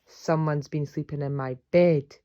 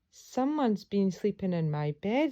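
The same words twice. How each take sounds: First: It is boomed in Father Bear's voice. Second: It is said in Baby Bear's voice.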